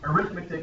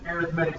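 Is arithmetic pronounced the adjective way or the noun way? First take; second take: noun; adjective. First: It is said with the noun's stress pattern. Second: It is said with the adjective's stress pattern. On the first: The word names the subject of calculation. "Arithmetic is a noun" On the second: The word describes a kind of sequence. "if it's an arithmetic sequence, it's an adjective"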